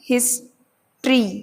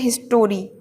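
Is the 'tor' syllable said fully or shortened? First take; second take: shortened; fully. First: The middle syllable is shortened to a quick 'tr'. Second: The middle syllable is said as a full 'tor'. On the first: The speaker calls it right. "ये है हिस्ट्री, छोटी हिस्ट्री" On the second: The speaker calls it wrong. "कई बच्चे बोलते हैं हिस्टोरी ... कितना गलत बोलते हैं"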